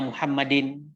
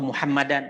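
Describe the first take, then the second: First: The word ends with an 'in' sound. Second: The word ends with an 'an' sound. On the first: "Jangan aina Muhammadin" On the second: "atau Muhammadan"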